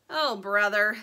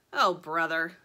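First: Mildly exasperated, firm groan of words; dismayed Dirt. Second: Lower, deadpan exasperation; weary Sugar. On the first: Dirt seeing her brother in the sketch, mildly dismayed. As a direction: let it land with a touch of dismay. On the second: Sugar handed the sketch of her brother, low and weary. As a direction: say it low as a resigned echo. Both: A narrator's reading.

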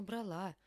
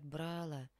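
First: Брала stressed on the final А; end-stressed брала; correct stress. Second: «брала» stressed on the first syllable; wrong stress. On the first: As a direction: lean on the last syllable of брала. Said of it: "Конечно, брала". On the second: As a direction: hit БРА in «брала», let the end drop. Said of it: "Это неверно". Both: Shown as a demonstration.

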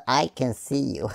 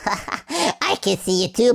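First: Said in the usual way. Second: Slow, laughing tease; teasing a monster, laughing. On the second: Real, not acted. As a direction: chuckle through the words. Repeats it laughing, slower.

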